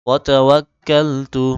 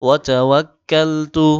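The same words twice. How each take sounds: No difference in how they are said.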